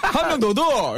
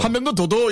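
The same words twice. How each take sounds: First: Very high Gyeongsang drink order; right Gyeongsang intonation. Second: High, mock Gyeongsang order done the wrong way; wrong Gyeongsang intonation. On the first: Guest shows the proper way to order, Gyeongsang dialect. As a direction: sing out the Gyeongsang tune, high-pitched. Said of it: "이렇게 하는 거죠". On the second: Guest shows how one doesn't order, mock Gyeongsang dialect. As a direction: parody a mistaken Gyeongsang accent, pitched high. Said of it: "이렇게 하진 않고". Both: Shown as a demonstration.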